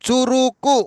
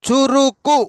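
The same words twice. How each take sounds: Both takes have the same delivery.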